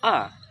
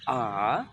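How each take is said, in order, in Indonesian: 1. Nadanya turun tajam dari tinggi. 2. Nadanya turun rendah, lalu naik. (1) "yang terakhir turun" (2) "kayak V turun baru naik"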